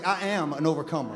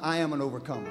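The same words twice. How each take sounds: First: It is said louder, with more energy. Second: It is said in a plain, steady voice.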